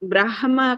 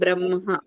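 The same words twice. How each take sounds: First: The h sound comes before the m. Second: The h sound comes after the m. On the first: The speaker calls it wrong. "బ్రహ్మ కాదండి" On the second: The speaker calls it right. "మా కింద హా ఒత్తు తీసుకోవాలి"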